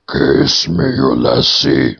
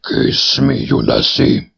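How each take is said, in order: First: Pool head voice. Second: Eerie voice of a loathsome head; pool head voice. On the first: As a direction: croak it up from the pool. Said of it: "said the head". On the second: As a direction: coax like an ugly head in a pool. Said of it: "third head from the pool". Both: A narrator's reading.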